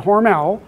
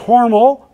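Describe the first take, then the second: First: The stress is on the second syllable. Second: The stress is on the first syllable. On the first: The speaker calls it wrong. "They will severely chastise you in Austin, Minnesota if you pronounce it Hormel" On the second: The speaker calls it right. "It is Hormel"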